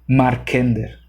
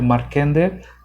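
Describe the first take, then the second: First: The stress falls on the 'Mar' syllable. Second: The stress falls on a later syllable, not 'Mar'. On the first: The speaker calls it right. "como si tuviera acento en la A" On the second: The speaker calls it wrong. "yo le estoy poniendo el acento en otro lado"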